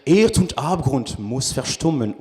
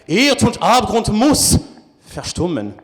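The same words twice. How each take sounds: First: It is declaimed in a plain, natural way. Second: It is declaimed in an overdone, exaggerated way. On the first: The speaker calls it right. "je pourrais dire" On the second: The speaker calls it wrong. "jamais je dirais ... ça sonne faux, que c'est surjoué un peu"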